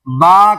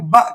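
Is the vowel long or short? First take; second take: long; short. First: The vowel is drawn out long. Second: The vowel is clipped short. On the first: The speaker calls it right. "बा कहना है।" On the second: The speaker calls it wrong. "लेकिन बा को फिर ब कहते हैं"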